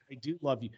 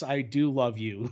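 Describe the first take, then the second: First: Soft, murmured I do love you; quiet mock vow. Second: Drawn-out, very slow Yes, I do love you; slow mock vow. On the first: Parodying the lover quietly, murmured vow. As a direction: breathe it out softly. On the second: Parodying the lover again, drawn out slowly. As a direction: stretch every word of it.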